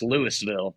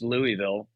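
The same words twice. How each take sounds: First: The S in the middle is clearly pronounced. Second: The S in the middle is silent. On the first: The speaker calls it right. "You pronounce the S in that one" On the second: The speaker calls it wrong. "it's not pronounced Louisville"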